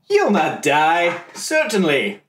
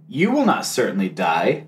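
First: It is said in a smooth, convincing tone. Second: It is said in a put-on serpent voice.

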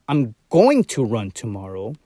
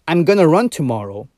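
First: It is said with the full form 'going to'. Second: It is said with the reduced form 'gonna'. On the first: The speaker insists on the plan against objection. "we're using the uncontracted version of gonna, which is going to, for emphasis" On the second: A plain statement of the plan. "the contracted version"

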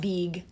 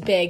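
First: The vowel is a long 'ee' sound. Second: The vowel is a short 'i' sound. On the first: The speaker calls it wrong. "not big" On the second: The speaker calls it right. "B-I-G is big"

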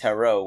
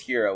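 First: The name sounds like hello with an r. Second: The name sounds like the word hero. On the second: "either your last name is Hero, which is already, like, kind of dumb"

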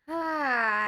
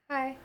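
First: It sounds warm and welcoming. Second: It sounds shy and quiet.

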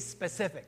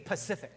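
First: The word begins with an sp sound. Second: The word begins with a p sound. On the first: The speaker calls it right. "learn to be specific" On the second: The speaker calls it wrong. "they didn't know how to quite say it right. So a lot of them were saying"

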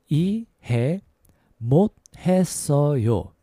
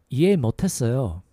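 First: It is said at a slower pace. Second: It is said at a faster pace.

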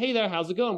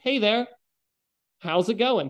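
First: It is said quickly and clipped. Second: It is said slowly and drawn out.

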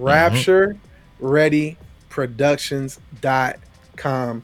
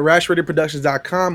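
First: It is said slowly. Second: It is said fast.

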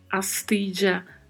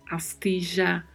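First: The double L sounds like 'dj'. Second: The double L sounds like 'zh'. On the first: "Som de DJ" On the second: "som de J"

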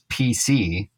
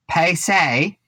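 First: The name is said without an Australian accent. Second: The name is said in an Australian accent.

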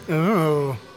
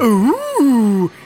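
First: It is said flatly, without excitement. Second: It is said with excited surprise.

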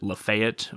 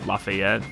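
First: The name is pronounced in an American manner. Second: The name is pronounced in a French manner. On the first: "Americans will Americanize it and pronounce it" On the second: "I pronounced it the French way"

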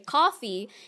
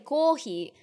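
First: It is said with an English accent. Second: It is said with a Japanese accent.

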